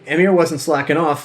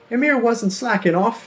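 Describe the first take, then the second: First: It is said in his natural voice. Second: It is said in a put-on Samwise Gamgee voice.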